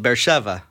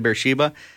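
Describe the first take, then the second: First: The consonant after 'she' is a v sound. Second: The consonant after 'she' is a b sound. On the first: This is how people in the country say it. "In Israel, they just simply call it Beersheva, which is kind of a different way of saying it" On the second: This is the familiar English form of the name. "we see Beersheba in the Bible too"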